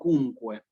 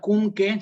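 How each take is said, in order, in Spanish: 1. La qu suena como kw, con la u pronunciada. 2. La qu suena como una k simple. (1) "la Q con la U ... siempre en latín se pronuncia" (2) "no es cunque"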